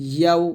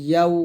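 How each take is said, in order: Both takes have the same delivery.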